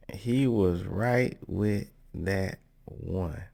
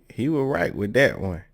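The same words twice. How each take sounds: First: Word by word, with pauses between; slow right down, set each word apart; slow emphatic repeat. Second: Said in the usual way. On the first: Real, not acted.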